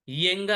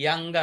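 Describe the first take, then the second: First: యంగ్ said as "yeng", with an e vowel; "yeng" pronunciation. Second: యంగ్ said as "yang", with an a vowel; "yang" pronunciation. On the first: Teacher offering the class two options, "yeng" pronunciation. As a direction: say యంగ్ with an "ye" opening. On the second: Teacher offering the class two options, "yang" pronunciation. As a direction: say యంగ్ with an open "ya" opening. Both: Shown as a demonstration. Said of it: "ఎలా పలకాలే దీన్ని".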